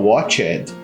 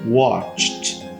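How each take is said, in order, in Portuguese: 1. O final é pronunciado como uma sílaba extra. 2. O final é um som de t curto. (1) "você conhece uma pessoa, senão você mesmo, que fala watched" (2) "ele vai vir com o som de T"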